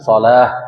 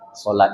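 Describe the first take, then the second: First: The word ends with an h sound. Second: The word ends with a t sound. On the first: This is the original Arabic way of reading it. "kan gitu bahasa Arabnya" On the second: This is the habitual local way of saying it. "di awak jadi sholat"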